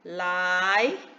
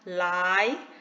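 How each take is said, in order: The two takes are said the same way.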